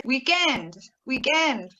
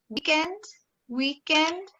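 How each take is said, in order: First: WEEKEND as week-END, stress on END; second-syllable stress. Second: WEEKEND as WEEK-end, stress on WEEK; first-syllable stress. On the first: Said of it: "stressing the second syllable". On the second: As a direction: hit the first syllable of "weekend", questioning rise. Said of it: "stressing the first syllable". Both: Shown as a demonstration.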